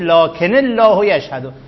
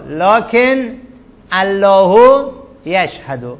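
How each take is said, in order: First: Lakin takes an added 'i' linking into Allah. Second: Lakin is said with no added linking vowel. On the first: The speaker calls it right. "دو تا ساکن وقتی کنار هم جمع میشن اولی رو ما کسر میدیم" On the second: The speaker calls it wrong. "این لکن الله نیستش"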